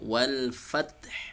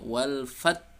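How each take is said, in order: First: The final h sound is clearly heard. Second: The final h sound is dropped. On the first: The speaker calls it right. "huruf ha tetap terdengar" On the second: The speaker calls it wrong. "huruf terakhir itu hilang"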